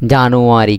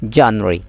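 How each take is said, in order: First: জানুয়ারি in full, "ja-nu-a-ri"; mistaken JANUARY. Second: জানুয়ারি squeezed to "jan-ri"; corrected JANUARY. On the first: Teacher quoting the local habit, জানুয়ারি as four-syllable "ja-nu-a-ri". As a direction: sound every syllable of জানুয়ারি. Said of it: "এবার জানুয়ারি হওয়া না যাবে". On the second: Teacher correcting students, জানুয়ারি shortened to "jan-ri". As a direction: swallow the middle of জানুয়ারি, "jan-ri". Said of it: "এবার হইবেন দে". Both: Shown as a demonstration.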